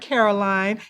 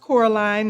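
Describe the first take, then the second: First: The first syllable sounds like 'car'. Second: The first syllable sounds like 'core'. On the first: The speaker calls it wrong. "not Caroline" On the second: The speaker calls it right. "It's pronounced Coraline"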